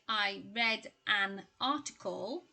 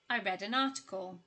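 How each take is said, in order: First: The words 'an' and 'article' are said separately. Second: The n of 'an' runs into 'article'. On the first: The speaker calls it wrong. "you wouldn't say" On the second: The speaker calls it right. "the N in an and the A in article there, they get pushed together"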